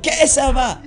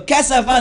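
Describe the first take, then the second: First: Cassava as KEH-sava, high and stretched; mocked mispronunciation. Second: Cassava with an open KAH; correct pronunciation. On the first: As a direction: exaggerate cassava with a long eh. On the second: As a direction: model cassava with ah in the first syllable. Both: Shown as a demonstration. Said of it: "not cassava".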